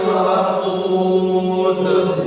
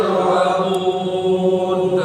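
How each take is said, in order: The two takes are said the same way.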